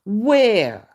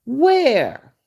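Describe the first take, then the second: First: Said in the usual way. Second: Higher, louder disbelieving Where?; incredulous where. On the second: Real, not acted. Challenging fans who call her beautiful, incredulous. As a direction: demand it in disbelief.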